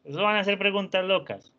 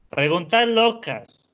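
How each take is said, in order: First: Said in the usual way. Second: Higher and louder, slowly savoring "Preguntas locas"; playful excitement. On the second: Shown as a demonstration. Teacher teasing students about wild questions, playfully excited. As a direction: stretch out "Preguntas locas" with delight.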